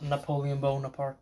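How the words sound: The name is pronounced the French way. "That's a little French"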